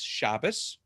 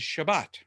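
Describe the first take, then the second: First: It uses the Ashkenazi Hebrew pronunciation. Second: It uses the Sephardic Hebrew pronunciation.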